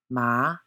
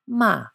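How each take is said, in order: First: The pitch rises from mid to high. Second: The pitch falls sharply from high to low. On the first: "Second tone, ma, a rising note" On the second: "And fourth tone, ma, a falling note"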